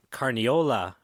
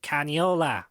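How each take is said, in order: First: Said in the usual way. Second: Put-on heavy Jersey accent, pitched up; thick Jersey accent. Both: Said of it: "with that thick Jersey accent".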